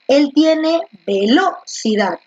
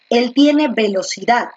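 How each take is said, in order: First: The stress is on the second syllable, lo. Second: The stress is on the last syllable, dad. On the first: The speaker calls it wrong. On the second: The speaker calls it right.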